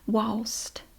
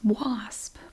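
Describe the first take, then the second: First: The word ends with an L and T sound. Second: The word ends with an S and P sound. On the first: This is how older locals say it. "they pronounce it walst" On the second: This is the standard form of the word. "It's wasp"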